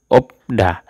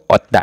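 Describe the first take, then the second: First: Only a p comes before da. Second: Only a t comes before da. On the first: The speaker calls it right. "Dibacanya itu opda" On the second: The speaker calls it wrong. "atau otda. Salah"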